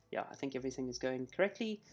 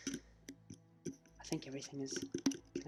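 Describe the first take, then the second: First: Said in the usual way. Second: Breathy half-whisper to himself. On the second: Real, not acted. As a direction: mutter it under your breath. Muttered aside while checking.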